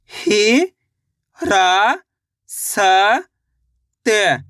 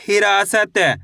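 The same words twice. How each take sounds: First: हि, रा, स, त spoken as separate syllables with pauses. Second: Said in the usual way. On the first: Shown as a demonstration. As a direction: sound out हिरासत one syllable at a time. (अक्षर-अक्षर अलग करके धीरे-धीरे)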